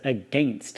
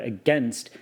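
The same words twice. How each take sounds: First: It is said with a Southern regional pronunciation. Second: It is said with a standard, non-Southern pronunciation. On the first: "I was pronouncing the word against as against" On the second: "the word against"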